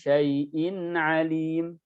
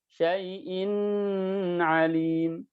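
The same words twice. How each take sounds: First: The nasal n sound is brief and plain. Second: The nasal n sound is held too long. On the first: The speaker calls it right. "Syai'in alim, syai'in alim" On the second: The speaker calls it wrong. "Tidak dibaca"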